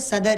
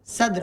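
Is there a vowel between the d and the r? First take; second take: yes; no. First: A short vowel separates the d and r. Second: The d and r form a cluster, no vowel. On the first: The speaker calls it wrong. "हमारे ज़हन में बैठा हुआ ये सदर ही है" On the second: The speaker calls it right. "सद्र होता"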